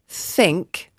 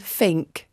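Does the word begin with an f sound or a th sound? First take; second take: th sound; f sound. First: The word begins with a th sound. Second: The word begins with an f sound. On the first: "I'm not saying think" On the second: "I'm saying think ... Like an F"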